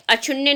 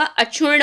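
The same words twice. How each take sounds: First: अक्षुण्य ending in "nya"; wrong NY ending. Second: अक्षुण्ण ending in a held N, no glide; correct double N. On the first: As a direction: sound a Y glide after N in अक्षुण्य. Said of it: "अक्षुण्य नहीं होगा". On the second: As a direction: hold the retroflex N of अक्षुण्ण without any Y. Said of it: "अक्षुण्ण होगा". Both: Shown as a demonstration.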